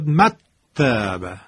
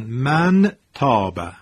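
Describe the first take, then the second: First: The n disappears into a doubled t. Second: The n is pronounced fully and clearly. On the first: "نون خونده نمیشد، حرف تا مشدد میشد" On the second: "اگر اظهار بود چی میشد؟ میشد مثلا من تاب"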